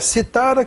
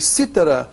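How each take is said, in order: First: The stress is on the middle syllable. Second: The stress is on the first syllable. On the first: It is a past form of the verb to cite. "que é o pretérito mais que perfeito do verbo citar" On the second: It names a musical instrument. "que é um instrumento musical"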